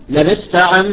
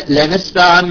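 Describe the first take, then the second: Both takes have the same delivery.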